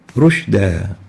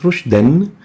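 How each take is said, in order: First: The word ends with a lengthened a vowel. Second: The word ends with an n sound. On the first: The reciter stops on this word. "upon stopping on that tanween, instead of saying rushdan, we say rushda" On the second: The reciter continues on to the next word. "The tanween adds a noon after the dal to be pronounced rushdan"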